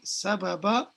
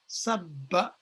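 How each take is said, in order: First: It has three syllables with two separate b sounds. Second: It has two syllables with one long b sound. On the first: "ordinarily, it would be sababa" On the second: "put together, the verb becomes sabba"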